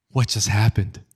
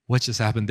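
First: Breathy, acted bewilderment; stunned whisper. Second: Said in the usual way. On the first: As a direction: play someone left stunned, voice mostly breath. Stunned boy left standing.

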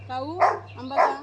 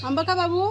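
First: Drawn-out, slow gentle question; slow coaxing call. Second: Cooing to a pet. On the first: Woman slowly coaxing the crow to take mango. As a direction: stretch each word to coax the bird. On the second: Woman coaxing the crow to take mango, high cooing call. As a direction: coo it up high like to a little one. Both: Real, not acted.

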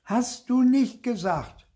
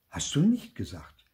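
First: High, loud, drawn-out accusation; indignant high-pitched cry; shouted retort. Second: Said in the usual way. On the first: A narrator's reading. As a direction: shout it slowly as a child tattling. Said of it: "rief ich".

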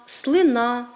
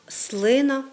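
First: «слина» stressed on the final syllable; хибний наголос. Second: «слина» stressed on the first syllable; нормативний наголос. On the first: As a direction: say «слина» as slyNA, stress at the end. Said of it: "ми часто з вами чуємо". («слина» з наголосом на останньому складі) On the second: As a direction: say «слина» as SLYna. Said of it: "за нормами української мови маємо говорити". («слина» з наголосом на першому складі) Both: Shown as a demonstration.

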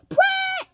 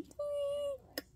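First: High shriek at full volume; sudden jump-scare shriek; too-loud scream. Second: Tiny high squeal, held back; a jump-scare scream done softly; toned-down scream. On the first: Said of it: "that was too loud". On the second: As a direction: squeal it high but keep the volume down. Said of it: "they're just gonna scream". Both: Shown as a demonstration.

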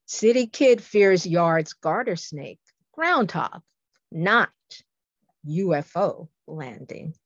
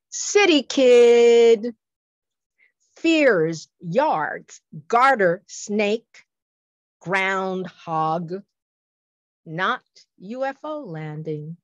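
First: Quicker, more connected haiku reading; poem recitation. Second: Slow, spaced-out haiku reading, opening loud; slow poem recitation. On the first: Poet repeats the sci-fi haiku for listeners, more flowing recitation. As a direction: recite it in running phrases, pausing around the final "not". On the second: Poet presents a sci-fi haiku to listeners, slow recitation. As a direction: recite it slowly, phrase by phrase, with long pauses. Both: Shown as a demonstration. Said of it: "Here's a sci-fi coup".

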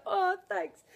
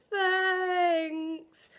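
First: Retold thanks. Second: One long, high, loud drawn-out 'thanks'; hammed-up awkward gratitude, stretched out; awkward thanks. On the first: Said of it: "I was like". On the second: Retelling thanking a manager without hugging her, awkward thanks. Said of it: "that made it even more awkward".

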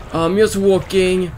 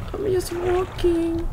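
First: Said in the usual way. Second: Much higher, slow and soft, like a tiny creature; squeaky high voice. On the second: Pretend. Gamer repeats his line in a tiny high voice. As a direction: squeak it out, small and timid.

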